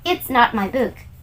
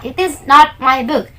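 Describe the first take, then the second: First: The words are linked, with "it is" contracted. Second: Each word is said separately and in full. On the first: The speaker calls it right. "tapi kalau mau pakai pronounce" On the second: The speaker calls it wrong. "jangan di patah-patah"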